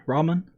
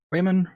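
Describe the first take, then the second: First: "Ramen" with an AH first vowel; name as Ramen. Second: "Raymond" with an AY first vowel; name as Raymond. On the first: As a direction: say "Ramen" as RAH-mun, questioning. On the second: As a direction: say "Raymond" as RAY-mun, questioning. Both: Shown as a demonstration. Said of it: "Name can't be Ramen".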